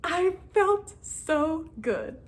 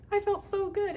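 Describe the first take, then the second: First: Much higher and very slow, savoring it; drawn-out delight. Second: Much higher, quick, giddy repeat; high giddy delight. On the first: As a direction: stretch every word out in joy. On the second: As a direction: squeal the words at normal speed. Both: Real, not acted. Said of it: "I was so excited".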